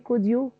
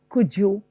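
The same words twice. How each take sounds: First: The d and y sounds stay separate. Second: The d and y merge into a j sound. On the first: The speaker calls it wrong. "I don't say could you" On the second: The speaker calls it right. "da is converted into ja"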